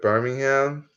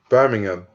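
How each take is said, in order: First: The city name is pronounced the American way. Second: The city name is pronounced the British way. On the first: The speaker calls it wrong. "Americans call it Birmingham" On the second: The speaker calls it right. "what's the proper pronunciation? Birmingham"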